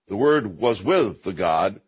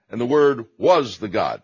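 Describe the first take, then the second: First: "with" drawn out and stressed before the God. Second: "was" punched louder before the God; stress on WAS. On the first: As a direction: lean slowly on "with". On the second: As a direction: hit the word "was" hard. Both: Shown as a demonstration. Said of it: "you can't say in the same sentence".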